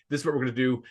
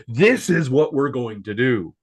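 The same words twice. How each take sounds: First: Said in the usual way. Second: "This is what we're going to do" louder and slower; slow, louder emphatic delivery; oomph. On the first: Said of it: "the first time he's saying". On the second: Shown as a demonstration. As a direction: hit every word with force. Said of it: "puts some oomph behind it".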